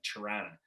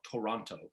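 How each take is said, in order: First: The word is squeezed into a quick reduced form. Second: Every syllable and both T sounds are said clearly. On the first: The speaker is from the city. "anybody from the city pronounces it like C H U R A N A" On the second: The speaker is not from the city. "people from other areas in Canada will call it Toronto"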